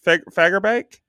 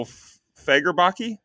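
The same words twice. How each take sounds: First: "Fagerbakke" ending like "bake", as a question; second pronunciation guess. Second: "Fagerbakke" guessed with a final "ee", as a question; unsure pronunciation. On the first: Host retrying the actor's surname "Fagerbakke", unsure. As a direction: try "Fagerbakke" with a silent final e, high. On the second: Host guessing at the actor's surname "Fagerbakke", unsure. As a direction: try "Fagerbakke" haltingly, high and slow. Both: Real, not acted. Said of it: "no idea how to pronounce".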